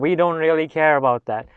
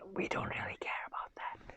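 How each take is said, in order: First: The phrase is said at a louder volume. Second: The phrase is said at a quieter volume.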